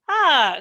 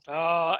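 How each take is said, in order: First: The pitch falls sharply from high. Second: The pitch dips low. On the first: "and then down" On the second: "and then the low tone"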